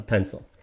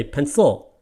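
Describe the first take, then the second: First: "pencil" softer, as PEN-cil, falling away; stress on PEN. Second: "pencil" as pen-CIL, weight on the last syllable; mis-stress "pencil" on its ending; wrong stress on CIL. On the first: Teacher stating what English requires, PEN-cil. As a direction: stress only the first syllable of "pencil". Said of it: "it must be a pencil". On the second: Teacher mocking a non-English pronunciation, pen-CIL. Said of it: "what language are you speaking when you say". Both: Shown as a demonstration.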